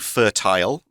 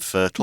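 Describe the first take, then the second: First: The word is said the British way. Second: The word is said a non-British way. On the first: "some people in the U K say fertile" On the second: "rather than fertile"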